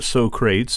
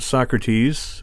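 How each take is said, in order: First: The name is said in a comic movie way. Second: The name is said in the standard way.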